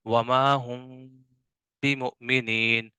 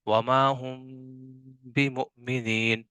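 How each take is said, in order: The two takes are said the same way.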